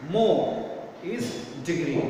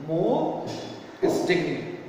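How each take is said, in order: First: Said in the usual way. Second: "More" lifted with a rise, then a pause before "is degree"; pause after More. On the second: Shown as a demonstration. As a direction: stress "More", hold, then drop into "is degree".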